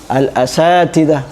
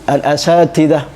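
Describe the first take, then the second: Both takes have the same delivery.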